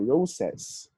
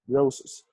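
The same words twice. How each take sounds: First: The final vowel is full and emphasized. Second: The final vowel is a weak, reduced schwa. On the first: The speaker calls it wrong. "we don't say roses" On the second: The speaker calls it right. "So the last vowel there is not emphasized"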